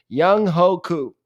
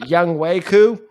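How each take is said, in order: First: The middle syllable starts with an H sound. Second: The middle syllable starts with a W sound. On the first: The speaker calls it wrong. "Did I mispronounce it?" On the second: The speaker calls it right. "There you go"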